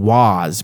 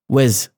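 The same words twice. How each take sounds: First: The vowel is full and the word is stressed. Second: The vowel is reduced and the word is unstressed. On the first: "I'm not saying was" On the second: "but I'm saying was"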